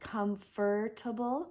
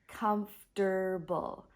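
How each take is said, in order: First: The word is said with more than three syllables. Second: The word is said with just three syllables. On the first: The speaker calls it wrong. "I often hear English or English learners pronouncing it as comfortable" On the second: The speaker calls it right. "but actually it sounds like comfortable"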